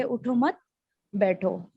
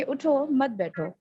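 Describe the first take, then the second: First: उठो मत together, then बैठो set apart; pause after मत. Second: उठो set apart, then मत बैठो together; pause after उठो. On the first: Teacher showing how grouping changes meaning, pause after मत. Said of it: "अदायगी की वजह से उनका माना change". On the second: Teacher showing how grouping changes meaning, pause after उठो. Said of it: "यानी कि". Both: Shown as a demonstration.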